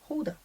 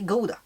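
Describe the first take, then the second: First: The word begins with an H sound. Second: The word begins with a hard G sound. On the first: This is how the Dutch say it. "With an H" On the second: This is how everyone here says it. "Cause we all say Gouda"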